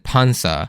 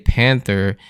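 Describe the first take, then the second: First: It is said with a Japanese accent. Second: It is said with an English accent.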